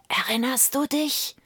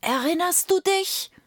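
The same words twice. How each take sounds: First: Higher, rising, haunting question; a ghostly voice prodding the memory; eerie whispered reminder. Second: Much higher, eerie rising question; second ghostly whisperer. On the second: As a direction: another spectre taunting, pitched right up. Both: A narrator's reading. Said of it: "flüsterte einer nach dem andern".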